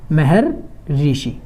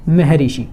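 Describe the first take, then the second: First: Maharshi stretched out very slowly, each syllable drawn long; slow dictation of Maharshi, softer; slow spelled-out demo. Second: Said in the usual way. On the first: Shown as a demonstration. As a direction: drag out Maharshi so the class can write it. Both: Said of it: "इसको हम कैसे लिखेंगे?".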